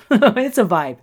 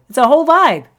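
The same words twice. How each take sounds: First: Said in the usual way. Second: Higher and louder, hyping it up; gleeful hype; excited. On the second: Real, not acted. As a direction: sell the vibe with a burst of glee. Hyping up her Instagram.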